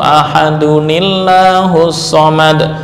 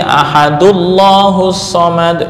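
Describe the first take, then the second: First: 'Ahad' links to the next word with '-uni-'. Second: 'Ahad' runs straight into 'llahus' without '-ni-'. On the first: The speaker calls it right. "ketika diwasolkan" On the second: The speaker calls it wrong. "nggak dibaca lagi"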